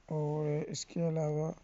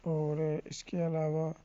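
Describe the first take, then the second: No difference in how they are said.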